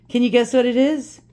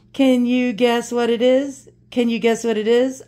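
First: Teasing singsong. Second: Drawn-out slow teasing question. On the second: Teasing viewers about the mystery box, slow and playful. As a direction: stretch it out to tease them. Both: Real, not acted. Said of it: "I'm gonna tease you".

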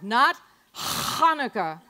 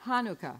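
First: "Hanukkah" slow, with harsh throaty H, louder; wrong Hanukkah. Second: "Hanukkah" with a soft plain H. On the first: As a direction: say "Hanukkah" with a guttural H. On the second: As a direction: say "Hanukkah" with an easy H. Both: Shown as a demonstration.

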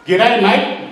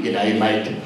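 First: Higher, rising "G'day, mate"; excited child greeting. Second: Low, dropped "G'day, mate"; disapproving echo. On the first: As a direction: greet your uncle in Aussie slang, pitched up. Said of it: "Manu ran up to me and says". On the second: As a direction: quote "G'day, mate" back in a much lower voice. Uncle echoes the greeting back, baffled. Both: Retold or imitated.

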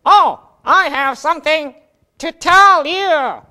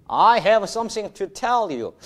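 First: High, slow put-on voice of the student Jack; Jack's puppet voice. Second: Said in the usual way. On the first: Jack tries his first English sentence, in a high put-on voice. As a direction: play Jack, stretching each word. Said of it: "자, 우선 우리 잭이 꾸며봅니다". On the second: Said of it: "정확한 영어인데".

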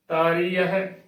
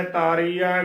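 First: ਤਾਰੀ ਹੈ said taaree-a-he; careful ਤਾਰੀ ਹੈ with separate last syllable; correct, h sounded. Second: ਤਾਰੀ ਹੈ run together as taaree-ai; demonstrated mistake, ਤਾਰੀ ਹੈ losing its h; wrong, h dropped. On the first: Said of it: "ਇਸ ਦਾ ਸ਼ੁੱਧ ਉਚਾਰਨ ਹੈ". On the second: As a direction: say ਤਾਰੀ ਹੈ without the h. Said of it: "ਗਲਤ ਉਚਾਰਨ ਹੈ". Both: Shown as a demonstration.

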